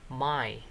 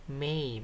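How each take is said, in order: First: "my" said with an open "ai" glide; wrong vowel in MY. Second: "May" said with an "ay" glide; correct vowel in MAY. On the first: Teacher showing students their misreading, "my" with an "ai" vowel. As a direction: say "my" to rhyme with "eye". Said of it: "bacanya itu my". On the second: Teacher correcting students' misreading, "May" with an "ay" vowel. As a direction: say "May" to rhyme with "day". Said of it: "ini bacanya bukan my". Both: Shown as a demonstration.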